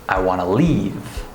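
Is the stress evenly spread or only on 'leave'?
only leave. Only the word leave is stressed. The speaker calls it right. "the correct sentence. ... The word leave is the only word with stress"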